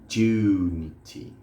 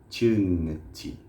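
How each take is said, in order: Both takes have the same delivery.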